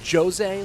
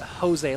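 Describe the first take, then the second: First: The name begins with a J sound. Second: The name begins with an H sound. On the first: "like Ja" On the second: "like an H"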